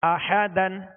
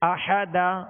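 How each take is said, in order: First: The word ends with an n sound. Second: The word ends with a long a vowel. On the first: The reading continues without stopping. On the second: The reading stops on this word.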